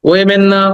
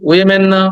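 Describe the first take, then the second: No difference in how they are said.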